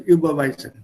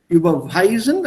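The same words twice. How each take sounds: First: No syllable is given any extra stress. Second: The stress falls on the syllable 'weis'. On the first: "I will not stress the verb" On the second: "also W wird betont"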